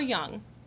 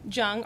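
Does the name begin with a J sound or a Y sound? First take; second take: Y sound; J sound. First: The name begins with a soft Y sound. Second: The name begins with a hard J sound. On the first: "The German name is Young" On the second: "the hard J sound"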